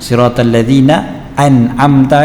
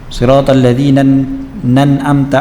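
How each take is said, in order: First: A glottal stop begins an'amta. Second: An n sound links straight into an'amta. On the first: The speaker calls it right. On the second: The speaker calls it wrong. "dia tinggalkan hamzah, disambung je terus"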